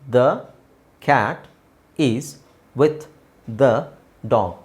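There are pauses between the words. "So gap ಕೊಡ್ತಾ ಇದ್ದೀನಿ"

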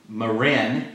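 It is said with an English r sound. "It's called Marin in English"

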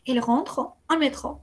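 A pause separates 'rentre' from 'au'. "si se separan, se hace una pausa"

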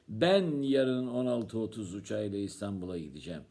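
The stress falls on the word "Ben". It tells who is going. "Kim gidecek?"

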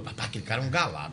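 It is said in a scornful, disapproving tone. The man is not a good guy. "é porque ele não é gente boa"

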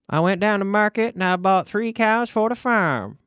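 The sentence is spoken in a strange, unusual accent. "But I said it in a strange accent, right?"

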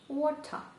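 It is said in a British accent. "І в Британії скажуть water"

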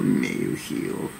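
It is said in a put-on demonic voice.

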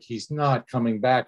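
The line sounds exasperated and impatient. The speaker is fed up with the question. "sometimes it's like, ... exasperation"

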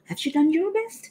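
The voice rises at the end like a question. It asks whether this really is their best. The speaker calls it right. "ถ้าถามเขาก็ต้องเสียงปัด"

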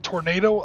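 It is said with an American pronunciation. "I know we pronounce this word tornado"

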